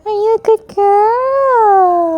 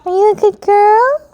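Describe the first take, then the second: First: High cooing question, drawn out slowly; slow stretched pet talk. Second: High, bright cooing question to the cat; high pet talk. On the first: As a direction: stretch each word as you coo to the cat. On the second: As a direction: coo it up high to praise the cat. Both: Real, not acted. Praising her cat.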